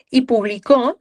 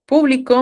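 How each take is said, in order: First: Publicó with the stress on CÓ; teacher contrasting with the past tense; stressed last syllable. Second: Público with the stress on PÚ, pitch up; teacher stressing the first syllable. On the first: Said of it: "me estoy refiriendo a algo en pasado". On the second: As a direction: punch PÚ in público. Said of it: "me refiero, pues, al público". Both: Shown as a demonstration.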